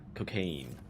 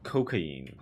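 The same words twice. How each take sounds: First: It is pronounced in the English way. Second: It is pronounced in a non-English way.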